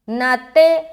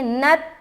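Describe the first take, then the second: First: The final t bounces with an echoing vowel. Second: The final t stops cleanly without any echo. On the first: The speaker calls it wrong. "ऐसा नहीं पढ़ना, नाते इस तरह का साउंड निकलता है तो आप गलत पढ़ रहे हैं" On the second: The speaker calls it right. "यहां पर हम पढ़ेंगे नत"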